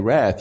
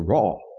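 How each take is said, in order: First: It is said with a Tennessee accent. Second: It is said with an Australian accent. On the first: "We Tennesseans say wrath" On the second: "you Australians say raw"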